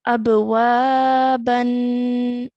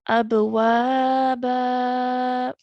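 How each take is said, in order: First: The word ends with a short a and n. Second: The word ends with a long a, no n. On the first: The reading continues without stopping. "reciting it with the tanween because there's a fathatain" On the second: The reader pauses after this word. "prolonging our sound for two counts"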